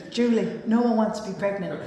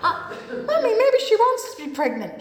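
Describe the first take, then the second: First: Lightly voiced deadpan mum; dry mother. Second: Higher, lightly voiced naive child; innocent daughter. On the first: Mother correcting Julie on the escalator, deadpan. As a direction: put the daughter straight, matter-of-fact. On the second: Daughter questioning her mother on the escalator, high and innocent. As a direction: pipe up to Mummy, half laughing.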